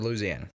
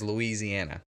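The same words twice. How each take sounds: First: It is said in a local Louisiana accent. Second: It is said in a general American accent. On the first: This is how people in the state say it. "you go to Louisiana and they say Louisiana" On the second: This is how people elsewhere in the country say it. "the rest of the United States says says Louisiana"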